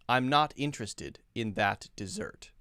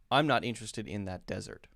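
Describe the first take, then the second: First: The last word is stressed on its second syllable. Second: The last word is stressed on its first syllable. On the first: It refers to a sweet food. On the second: It refers to a dry place.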